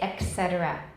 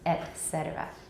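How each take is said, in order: First: The first word ends in a k sound. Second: The first word ends in a t sound. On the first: The speaker calls it wrong. "you'll hear people say et cetera. 把 k 放在前面" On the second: The speaker calls it right. "它根本没有科的音"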